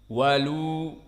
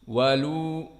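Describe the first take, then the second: The two takes are said the same way.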